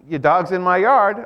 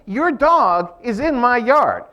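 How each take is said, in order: First: It is said in a flat, neutral tone. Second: It is said in an annoyed, complaining tone. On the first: It is only a statement of fact. "this is a statement of fact" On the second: The listener should come and remove the dog. "am I complaining"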